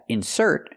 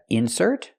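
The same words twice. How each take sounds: First: The stress is on the second syllable. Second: The stress is on the first syllable. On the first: It is a verb. "putting the stress on the second syllable, and that's a verb" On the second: It is a noun. "putting the stress on the first syllable, and that's a noun"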